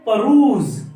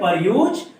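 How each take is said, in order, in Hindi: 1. यह एक ही मिले हुए शब्द की तरह बोला जाता है, 'peruse'। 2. यह 'per' और 'use' में बंटा हुआ है। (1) "तो इसको कैसे प्रोनाउंस करेंगे?" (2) "नो गाइस, यहाँ पे रॉन्ग हो जाते"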